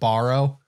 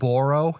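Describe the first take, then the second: First: The word is said with a standard vowel. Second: The word is said with a Canadian-sounding vowel. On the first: This is how the speaker normally says it. The speaker calls it right. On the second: The speaker picked it up from listening to others. The speaker calls it wrong.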